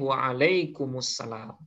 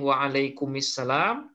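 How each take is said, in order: First: The joining vowel before salam is u. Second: The joining vowel before salam is i.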